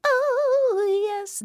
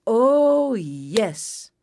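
First: Very high, drawn-out "oh"; tiny high bird voice gliding down; delighted bluebirds. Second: Long swoop down to "yes"; pleased hawk. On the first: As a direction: coo it high and long. Bluebirds' cry entering garden. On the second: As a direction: relish it, falling in pitch. Hawk's cry entering garden. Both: A narrator's reading.

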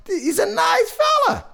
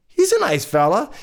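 First: Very high-pitched, strained insistence; over-insistent squeal. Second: Said in the usual way. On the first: Acted. Storyteller insists to children about the father, over-insistent squeal. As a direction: shoot way up high, protesting he is nice.

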